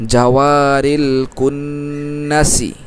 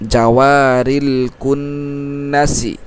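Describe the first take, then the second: No difference in how they are said.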